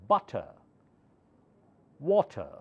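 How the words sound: The final R sound is dropped. "last R is not pronounced in British words, British English"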